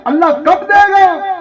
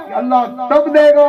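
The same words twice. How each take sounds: First: High-pitched question pressing on कब; preacher's high, insistent कब; ringing rhetorical question. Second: Firm statement landing on तब, pitch settling; preacher's settled, decisive तब; emphatic answer. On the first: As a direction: throw out कब as a raised challenge. Rhetorical question before its answer. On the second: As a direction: answer with weight on तब. Answers his own rhetorical question. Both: Acted.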